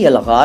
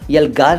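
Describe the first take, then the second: First: The middle consonant is a throaty fricative gh. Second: The middle consonant is a plain hard g stop. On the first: The speaker calls it right. "यलगार है, ग के नीचे नुक्ता लगा दीजिएगा" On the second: The speaker calls it wrong. "यलगार नहीं"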